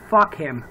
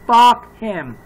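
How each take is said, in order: First: Said in the usual way. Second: Louder repeat. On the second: Real, not acted. Cursing the dead shooter.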